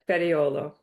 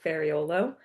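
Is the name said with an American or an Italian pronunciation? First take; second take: Italian; American. First: The name is said with an Italian pronunciation. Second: The name is said with an American pronunciation. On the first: "it's actually pronounced Fariolo" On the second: "that's how we would say it the Americanized way"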